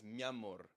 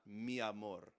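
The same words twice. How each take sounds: First: "mi amor" run together as "mamor"; vowels merged. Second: "mi amor" with the i of mi clearly said; separate vowels. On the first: Teacher shows the singer's merged "mi amor". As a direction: glide "mi amor" into one fast word. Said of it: "He says". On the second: Teacher shows the form the singer avoids, "mi amor" kept apart. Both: Shown as a demonstration.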